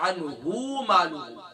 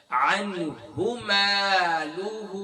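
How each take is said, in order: First: "عنہ" with the final hu stretched; quicker "مالہ" after an overlong hu in "عنہ"; wrongly lengthened hu. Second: "عنہ" with a short hu, then long "مالہ"; elongated maa in "مالہ" after a quick hu; short pesh. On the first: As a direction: show the mistake, dragging "عنہ" into "مالہ". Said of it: "یہاں الٹی پیش نہیں ہے". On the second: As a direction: recite slowly, never stretching the hu of "عنہ". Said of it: "یہاں صرف پیش کی علامت ہے". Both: Shown as a demonstration.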